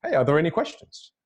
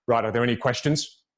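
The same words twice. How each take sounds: First: Open, welcoming call for questions; inviting question. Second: Low-key, closed-off call for questions; mildly discouraging Q&A opener; closed, uninviting question. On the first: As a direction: invite the room to ask, lifting at the end. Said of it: "When you're inviting for questions". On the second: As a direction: ask for questions while wanting none. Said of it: "No, I don't want any questions". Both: Acted.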